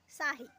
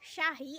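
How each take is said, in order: First: The word begins with an s sound. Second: The word begins with an sh sound. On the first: The speaker calls it wrong. "I pronounced sahi" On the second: The speaker calls it right. "instead of pronoun- pronouncing it shahi"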